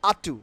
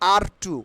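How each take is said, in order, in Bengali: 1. প্রথম শব্দটি কোনো r ধ্বনি ছাড়াই শেষ হয়। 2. প্রথম শব্দটি একটি উচ্চারিত r ধ্বনি দিয়ে শেষ হয়। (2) "নট আর টু"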